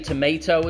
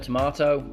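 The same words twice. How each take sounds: First: It is said with an American accent. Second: It is said with a British accent. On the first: This is the newer habit picked up from others. "I've started to say" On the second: This is the original habit. "instead of"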